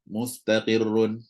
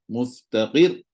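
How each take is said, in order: First: The ending is said at a plain, even level. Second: The voice is raised on the final syllable. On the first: The reading continues without stopping. "biasa gitu" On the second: The reader stops on this word. "naikkan suara sikit"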